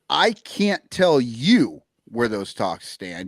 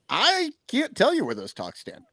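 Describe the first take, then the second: First: It sounds secretive, unwilling to reveal anything. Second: It sounds clueless, like he has no idea.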